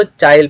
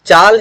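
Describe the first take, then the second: First: चाइल with an i glide before the l; Nagpuri apinihiti. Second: Said in the usual way. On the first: Shown as a demonstration. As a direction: say चाइल, slipping an i in before final l. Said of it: "यहाँ पर इसको चाइल पढ़ेंगे". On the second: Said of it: "चाल है तो".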